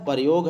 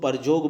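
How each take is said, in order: First: The middle consonant is a y sound. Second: The middle consonant is a j sound. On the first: "प्रयोग है" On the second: "उसको परजोग बोल देते हैं"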